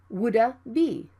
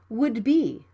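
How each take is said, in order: First: The D is fully released with an extra vowel. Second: The D is cut short without release. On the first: The speaker calls it wrong. "Don't say it like woulda be" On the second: The speaker calls it right. "like a native speaker"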